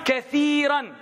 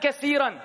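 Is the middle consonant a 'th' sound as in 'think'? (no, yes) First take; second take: yes; no. First: The middle consonant is a soft 'th' sound. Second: The middle consonant is not a 'th' sound. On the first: The speaker calls it right. "Bring that tha from theater and put it in" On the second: The speaker calls it wrong. "Not kathiran"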